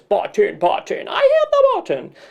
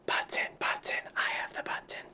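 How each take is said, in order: First: It is in a goofy monster voice. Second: It is whispered quietly.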